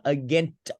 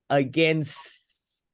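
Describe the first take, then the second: First: The s sound is weak or missing. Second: The s sound is clearly pronounced. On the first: The speaker calls it wrong. "not against" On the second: The speaker calls it right. "but against ... the s is more important"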